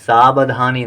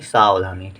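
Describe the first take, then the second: First: The second syllable starts with a b sound. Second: The second syllable starts with a v sound. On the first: The speaker calls it wrong. "बा ना लिखें, सावधानी नहीं" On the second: The speaker calls it right. "सावधानी में वा लिखें"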